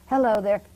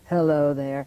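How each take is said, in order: First: It is said at a normal speaking pitch. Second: It is said at the lowest pitch. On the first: "start up with your normal voice" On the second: "till you can finally do it no more"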